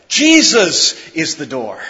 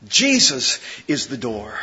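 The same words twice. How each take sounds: First: Said in the usual way. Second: Much softer and lower, almost to yourself; hushed repeat. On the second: Shown as a demonstration. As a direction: let the words "Jesus is the door" sink into a hush.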